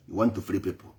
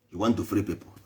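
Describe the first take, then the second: No difference in how they are said.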